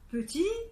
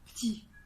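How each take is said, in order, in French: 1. La première voyelle est entièrement prononcée. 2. La première voyelle est supprimée.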